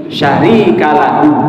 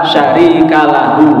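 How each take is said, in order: The two takes are said the same way.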